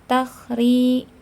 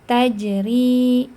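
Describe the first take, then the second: First: The middle consonant is a rasping kh sound. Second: The middle consonant is a j sound. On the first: The speaker calls it wrong. "Yang bawah jangan dibaca takhri" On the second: The speaker calls it right. "tapi tajri"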